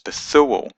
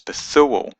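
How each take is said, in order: First: The middle consonant is a soft th sound. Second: The middle consonant is a soft th sound.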